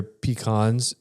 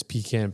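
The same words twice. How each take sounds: First: "pecans" with a broad AH in the second syllable; "pecans" as pee-KAHNZ. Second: "pecan" with the short A of "can"; "pecan" as PEE-can. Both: Shown as a demonstration. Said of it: "in that realm".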